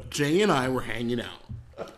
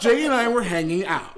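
First: Low storyteller voice without the Mexican accent; Mexican accent dropped. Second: Put-on laughing redo in a Mexican accent; Mexican accent restored. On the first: Real, not acted. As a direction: set the scene, Mexican accent gone. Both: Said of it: "all of your Mexican accent has dropped away".

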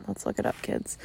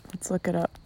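First: Breathy whisper, much softer; whispered aside to the kids. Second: Said in the usual way. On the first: Shown as a demonstration. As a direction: drop to a hushed whisper for the kids. Repeats line, then whispers it.

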